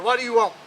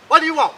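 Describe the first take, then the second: First: Gruff king. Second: Much higher and louder; gruff king yelling. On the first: King answers the door gruffly. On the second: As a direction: bellow it at the stranger at the door. King answers the door again. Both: Acted.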